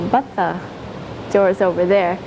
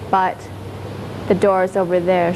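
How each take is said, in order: First: The word 'but' is drawn out long. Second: The word 'but' is clipped short. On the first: "she'd sort of drag it out" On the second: "it's just but, you just stop it at but"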